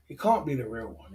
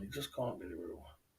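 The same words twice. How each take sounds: First: Said in the usual way. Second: Low quiet mutter; muttered disbelief. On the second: Real, not acted. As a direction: say it under your breath in disbelief.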